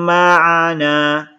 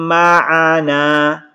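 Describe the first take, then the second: Both takes have the same delivery.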